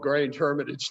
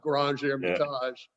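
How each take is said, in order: First: Hermitage is pronounced the plain English way. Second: Hermitage is pronounced the French way. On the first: This is how the wine is named locally. The speaker calls it right. "we speak English in Australia. That's, this wine is called Grange Hermitage" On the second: This is an outsider's pronunciation. The speaker calls it wrong. "not Grange Hermitage"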